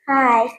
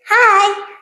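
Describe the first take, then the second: First: The greeting is said flatly, without cheerfulness. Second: The greeting is said in a cheerful, smiling way. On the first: "Not cheerful smile" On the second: "Cheerful smile"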